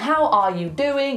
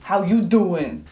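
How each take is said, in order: First: Every word is said fully, with a final g. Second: The word are is dropped and the g is lost. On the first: "instead of being" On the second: "he gets rid of the R and drops the G"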